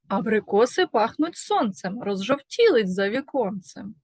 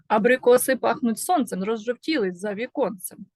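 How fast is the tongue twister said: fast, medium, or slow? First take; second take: medium; fast. First: It is spoken at a quicker pace. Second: It is spoken at the fastest pace. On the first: "Швидше" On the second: "Ще швидше"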